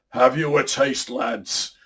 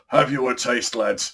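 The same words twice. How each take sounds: First: It is read in a natural voice. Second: It is read in a silly put-on voice.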